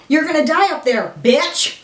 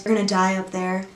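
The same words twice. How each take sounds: First: Higher, excited mock threat; playful taunt. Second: Softer, docile movie-line imitation; calm, docile. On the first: Vlogger playfully quotes the shirt at viewers, high excited taunt. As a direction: throw the movie line out as a gleeful taunt. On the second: Vlogger quoting Reagan from the movie, calm docile voice. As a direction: say it calmly and quietly, imitating the character. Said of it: "in a very calm, you know, docile voice".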